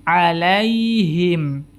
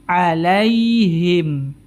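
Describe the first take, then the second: No difference in how they are said.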